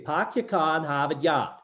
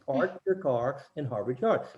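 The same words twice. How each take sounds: First: The R sounds are dropped completely. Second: Every R sound is clearly pronounced. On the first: "up there, they say" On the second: "You hear me say the R's"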